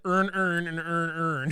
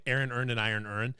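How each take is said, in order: First: Put-on louder, higher Baltimore accent, every word flattened to "earn"; imitated Baltimore accent. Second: "Aaron earned an iron earn" with each word sounded separately; words pronounced distinctly. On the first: Retelling a short about Baltimore speech, imitated Baltimore accent. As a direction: mimic Baltimore, merging all the words into "earn". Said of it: "the Baltimore accent's hilarious".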